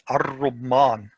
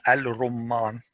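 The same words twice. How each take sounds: First: Ar-rumman with a doubled r and no l; ar-rumman, l merged into the r; correct ar-rumman. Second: Al-rumman with a clear l before the r; al-rumman with the l sounded; wrong al-rumman. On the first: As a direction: say ar-rumman as arr-rumman. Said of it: "not al-rumman". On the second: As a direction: keep the l in al-rumman as a mistake. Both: Shown as a demonstration.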